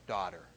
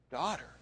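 First: Low, soft first "Daughter"; tender call. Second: Tender call. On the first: Jesus tenderly addresses healed woman. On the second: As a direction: lift "daughter" gently. Jesus repeats address. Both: Acted.

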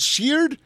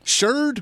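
First: Sheard said with an "ee" sound, like "sheered"; pronounced "sheered". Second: Sheard said with an "er" sound, like "sherd"; pronounced "sherd". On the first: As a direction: say Sheard to rhyme with "beard". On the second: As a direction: say Sheard to rhyme with "bird". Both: Shown as a demonstration. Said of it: "how you pronounce it".

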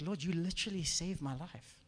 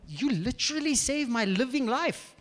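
First: Softly retold prayer, no actual crying; subdued gratitude. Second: "literally saved my living life" drawn out, pitched up; slow down and lean on every word of "living life"; emphatic gratitude. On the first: Man thanking the Lord after breaking down, subdued. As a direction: say it quietly, in understated awe. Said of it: "I just broke down crying". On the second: Retold or imitated. Man telling God it was physical life, emphatic. Emphatic retake of the same prayer.

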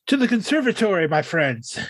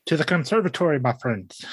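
First: Grand Victorian gentleman voice. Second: Low, grand Victorian gentleman. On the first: Retold or imitated. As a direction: declaim it like a Victorian gent. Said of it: "in the most Victorian voice he can do". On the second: Shown as a demonstration. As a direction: drop low and declaim like a Victorian gent. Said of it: "give me a Victorian voice real quick".

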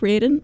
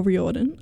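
First: "Riordan" run together in two syllables; first pronunciation attempt. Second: "Riordan" in three syllables; alternative pronunciation. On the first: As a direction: say "Riordan" as REER-dan. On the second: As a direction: say "Riordan" as ree-OR-dan. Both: Shown as a demonstration. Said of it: "not sure how to pronounce".

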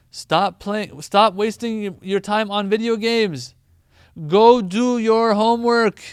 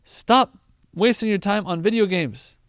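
First: Louder, slower, building to a near-shout; emphatic parent scolding. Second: Loud, firm telling-off; parent scolding. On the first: A parent doubling the telling-off about video games, building to a loud slow shout. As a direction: hammer the point home and end on a yell. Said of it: "Sometimes to emphasize even more". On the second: A parent telling a gaming kid off once, firm and loud. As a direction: scold the gamer once and leave it. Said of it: "They'll say". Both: Retold or imitated.

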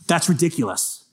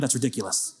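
First: Said in the usual way. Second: "That's ridiculous" muttered much softer, lower; muttered repeat. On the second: Real, not acted. Preacher repeating it to himself, much softer. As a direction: drop "That's ridiculous" to a low aside.

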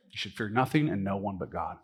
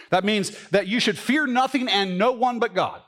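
First: Lower, softer echo of the line; soft sincere repeat. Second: Raised preaching voice with weight on fear; preaching emphasis. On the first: Pastor repeating the verse to the church, soft and sincere. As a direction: let it land gently, almost to yourself. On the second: Pastor urging the congregation, raised preaching emphasis. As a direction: drive home the point from the pulpit. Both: Acted.

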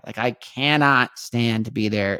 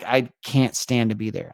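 First: "cannot" drawn out and leaned on, slower; stress on cannot. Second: Said in the usual way. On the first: Real, not acted. Telling listeners how much he now hates Vegas, stressing cannot. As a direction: weigh down "cannot", each word deliberate.

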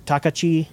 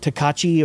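First: Takachi stressed on TA, as TAH-kuh-chee; stress on first syllable. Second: Takachi stressed on KA, as tuh-KAH-chee; stress on second syllable. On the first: Host unsure of a company's name, Takachi stressed on TA. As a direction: say Takachi with the beat up front, middle syllable reduced. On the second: Host trying out an enclosure company's name, Takachi stressed on KA. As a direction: say Takachi with the beat on the middle syllable. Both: Shown as a demonstration. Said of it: "don't remember how to pronounce that".

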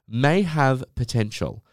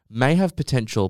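First: "May" leaned on, slow and falling; stress on may. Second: "have" leaned on, the line falling; stress on have. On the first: Podcaster reading a review aloud, stressing "May". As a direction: read "May have potential." slowly, weight on "May". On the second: Podcaster rereads the review, now stressing "have". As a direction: read "May have potential," with the weight on "have". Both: Shown as a demonstration.

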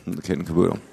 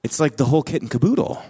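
First: Low, mock-serious repeat; deadpan mock-theological; mock solemn. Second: Said in the usual way. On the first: Shown as a demonstration. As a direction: say it like a grave technical term. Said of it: "that's a theological term".

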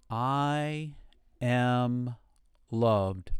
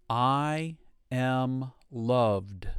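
First: Word by word, slowly; paced affirmation. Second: Slow affirmation. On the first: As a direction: leave space between each word. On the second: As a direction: stretch it out gently. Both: Shown as a demonstration. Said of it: "And again".

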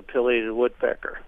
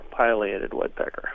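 First: "pileated" starting with PILL, short i; "pileated" with first vowel as in pill; short-i pronunciation. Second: "pileated" starting with PILE, long i; "pileated" with first vowel as in pile; long-i pronunciation. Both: Shown as a demonstration. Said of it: "How do you pronounce that?".

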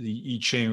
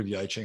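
First: "I Ching" with an opening "ee" vowel. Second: "I Ching" with an opening "eye" diphthong. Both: Shown as a demonstration. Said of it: "however you wanna pronounce it".

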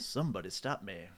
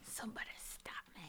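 First: Deep Mask quote. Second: Soft, unvoiced whisper; quiet whispered movie line; whispered echo. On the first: Retold or imitated. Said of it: "quoting the movie". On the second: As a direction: hiss it back as a whisper.

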